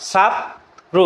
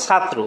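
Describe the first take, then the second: First: ছাত্র broken apart, a clear pause between "chhat" and "tro"; syllable break. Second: Said in the usual way. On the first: Shown as a demonstration. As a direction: pull ছাত্র apart into two slow syllables. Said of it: "শব্দটাকে কিন্তু ভাঙা যায়". (ছাত্র থেমে থেমে দুই ভাগে উচ্চারণ) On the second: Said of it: "শব্দটা যখন আমরা উচ্চারণ করি".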